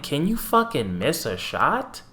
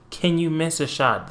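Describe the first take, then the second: First: Exasperated plea. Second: Exasperated plea, repeated. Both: Retold or imitated. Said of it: "I'm like".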